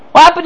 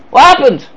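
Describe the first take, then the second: First: "What happened?" pushed up higher, "What" lifted; incredulous, higher "What happened?"; rising challenge. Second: Said in the usual way. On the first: Real, not acted. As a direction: throw the question back higher.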